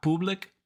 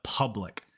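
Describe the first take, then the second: First: Public said "POO-blic", rising; wrong oo vowel. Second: Public said "PUH-blic", falling; correct uh vowel. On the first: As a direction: round the U of public into oo, as the mistake. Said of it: "Not public". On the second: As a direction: open uh in public, lips unrounded. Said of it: "the U makes an uh sound". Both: Shown as a demonstration.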